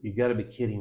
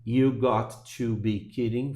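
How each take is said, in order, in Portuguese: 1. Got e to se juntam e viram gotta. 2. Got e to são ditos como palavras separadas.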